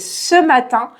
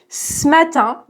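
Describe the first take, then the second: First: The e of "ce" is fully pronounced. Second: The e of "ce" is dropped. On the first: This is the standard form found in books. "normalement, c'est ce matin" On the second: This is natural everyday speech. "à l'oral, de manière très naturelle, on mange les E"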